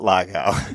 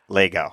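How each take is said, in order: First: The first vowel is an 'ah' sound. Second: The first vowel is an 'eh' sound. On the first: The speaker calls it wrong. "not Lago" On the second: The speaker calls it right. "My last name's Lego"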